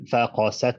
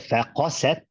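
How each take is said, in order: First: All sounds get equal weight, without emphasis. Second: One sound is held and emphasized. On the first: The egg opened or cracked. "like that" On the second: The hearts became hard. "with emphasis"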